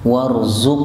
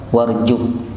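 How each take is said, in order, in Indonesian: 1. Konsonannya dibaca 'z' yang jelas. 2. Konsonannya dibaca 'j'.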